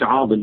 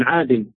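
First: "عاضل" with an emphatic d in the middle; wrong heavy dad. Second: "عادل" with a thin, non-emphatic d; correct light dal. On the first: Teacher repeats the mistake to avoid, heavy dad. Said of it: "ما بقولش". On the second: Teacher repeats the right name, light dal. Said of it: "بقول". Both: Shown as a demonstration.

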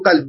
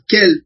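First: قلب with a clear standard qaf, q from the back of the throat. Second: كلب said as galb, the qaf turned into a hard g; Iraqi gaf. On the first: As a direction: say قلب the classical way, hard q. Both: Shown as a demonstration. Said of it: "نجعل القاف كاف".

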